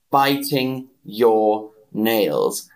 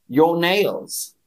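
First: "Biting your nails" said very slow, "Biting" stressed; slow model. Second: Said in the usual way. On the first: Shown as a demonstration. Teacher modelling "Biting your nails" for the chat, slow and clear. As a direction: spell it out word by word, lean on "Biting". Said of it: "teacher models slowly". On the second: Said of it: "first quick take".

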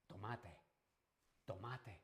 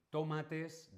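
First: Andalusian-style word ending on an open vowel, no S; Andalusian dropped S. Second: "tomates" with a clearly sounded final S; final S pronounced. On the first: Teacher showing how Andalusians say it, Andalusian open ending. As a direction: drop the last S as Andalusians do. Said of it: "aspiran o no pronuncian la S final". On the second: Teacher showing what Andalusians don't say, "tomates" with full final S. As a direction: say "tomates" carefully, closing on an audible S. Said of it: "No dicen tomates". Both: Shown as a demonstration.

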